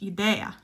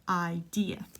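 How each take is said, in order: First: The word is pronounced the Spanish way. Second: The word is pronounced the English way. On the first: "I know in Spanish idea" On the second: "but idea"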